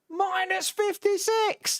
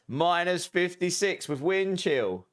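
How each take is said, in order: First: Shocked squeal. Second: Reading chat aloud. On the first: Real, not acted. Shocked at extreme cold. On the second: Acted. Reading a viewer's temperature.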